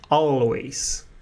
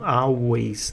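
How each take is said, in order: First: The L is said with the tongue tip raised. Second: The L is replaced by a U-like vowel. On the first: The speaker calls it right. "Não esquece de colocar o L aqui no topo da língua" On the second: The speaker calls it wrong. "não é U"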